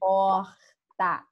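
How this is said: The r is scratchy, in a Rio accent. "a gente fala porta, porta, arranhado"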